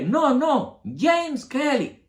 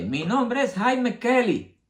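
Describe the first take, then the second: First: "James" pronunciado en inglés, muy agudo y lento; viejo corrige. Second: "Jaime" dicho a la española, agudo y lento; "Jaime Kelly" con pronunciación castellana, voz de hijo imitada; hijo imitado. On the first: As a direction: corrigiendo con fuerza, "James Kelly" a la inglesa. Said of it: "el viejo le corrige". (el viejo corrige al hijo, "James" en inglés) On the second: (el hijo se presenta, "Jaime" pronunciado a la española) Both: Retold or imitated.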